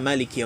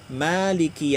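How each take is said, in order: First: The vowel after the m is kept short. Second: The vowel after the m is held long. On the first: It means the one who rules. "Tapi juga boleh dibaca pendek" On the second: It means the owner. "mimnya panjang"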